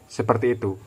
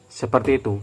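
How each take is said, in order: The two takes are said the same way.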